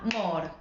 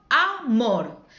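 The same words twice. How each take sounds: First: AMOR said syllable by syllable, a-mor; split into syllables. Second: AMOR split a-MOR, loud, the end hit hard; stress on last syllable. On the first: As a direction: break AMOR in two, as if clapping each syllable. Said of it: "las señas les hacían aplaudir. Les decían". (amor separado en sílabas, a-mor) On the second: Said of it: "La última es la que suena con más fuerza". (amor con fuerza en la última sílaba, a-MOR) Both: Shown as a demonstration.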